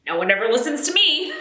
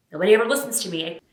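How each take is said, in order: First: Higher and louder, rising on me; hammed-up exasperated complaint; louder aggrieved repeat. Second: Said in the usual way. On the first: Mom repeating her complaint to camera, louder and higher.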